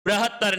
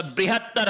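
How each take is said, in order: First: बृहत्तर starting "bra", no i sound; wrong pronunciation. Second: बृहत्तर starting "bri", with an i; correct pronunciation. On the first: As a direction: say "bra-hat-tar" for बृहत्तर. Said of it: "बृहत्तर नहीं होता". (बृहत्तर को "ब्रहत्तर" बोलें) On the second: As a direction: say "bri-hat-tar" for बृहत्तर. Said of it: "बृहत्तर होता है". (बृहत्तर में "ब्रि" साफ़ बोलें) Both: Shown as a demonstration.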